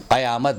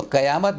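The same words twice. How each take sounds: First: "कयामत" with throaty q; careful Urdu back q in "कयामत"; correct pronunciation. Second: "कयामत" with plain front k; everyday "कयामत", no throaty q; common mispronunciation. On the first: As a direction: say "कयामत" as qayaamat. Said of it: "कयामत बोलें". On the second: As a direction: say "कयामत" as kayaamat. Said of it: "ना बोलें". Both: Shown as a demonstration.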